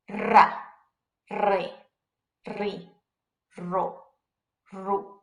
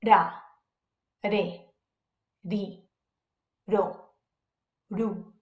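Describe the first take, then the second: First: Strongly rolled R in Ra, re, ri, ro, ru. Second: Soft single-tap R in Ra, re, ri, ro, ru. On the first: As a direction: trill the R hard in Ra, re, ri, ro, ru. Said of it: "a strong R sound". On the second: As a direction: tap the R lightly in Ra, re, ri, ro, ru. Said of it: "that soft R sound like we just did". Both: Shown as a demonstration.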